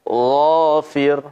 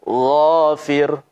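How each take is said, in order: No difference in how they are said.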